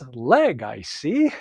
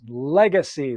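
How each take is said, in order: First: It is said slowly with a break after leg. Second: It is said quickly as one run-together word.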